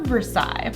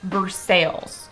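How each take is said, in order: First: It is said the French way, ending in 'sigh'. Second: It is said the local way, ending in 'sales'. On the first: The name of the palace in France. "a famous French palace" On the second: The name of the city in Kentucky. "everyone pronounce it Versailles"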